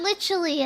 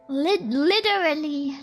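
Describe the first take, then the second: First: It is said without an American accent. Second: It is said in an imitated American accent. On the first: "Instead of literally" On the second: "it's li literally"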